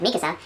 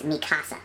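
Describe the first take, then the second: First: Said in the usual way. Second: "Mikasa" said as Spanish "mi casa"; "Mikasa" split like two Spanish words, mee KAH-sah; Spanish misreading. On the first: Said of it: "So instead of Mikasa". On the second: Shown as a demonstration. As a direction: stress the middle of "Mikasa", as in "mi casa". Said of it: "it's Mikasa ... Like my house".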